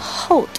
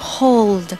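First: The L sound is left out. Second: The L sound is clearly pronounced. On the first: The speaker calls it wrong. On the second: The speaker calls it right.

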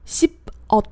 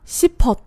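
First: The syllables are split with a break between. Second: The final consonant links into the next syllable. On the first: The speaker calls it wrong. "如果你不想发连读的话，听起来是这样的" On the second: The speaker calls it right. "这里面的싶和어变成了싶었"

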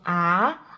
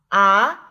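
First: The pitch dips and curves before rising. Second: The pitch climbs in one straight line. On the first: The speaker calls it wrong. "不能够曲线上升变成啊" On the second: The speaker calls it right. "而是啊啊啊"

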